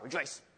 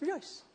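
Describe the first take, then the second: First: It is said sternly, with a frown. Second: It is said joyfully, with a glad tone.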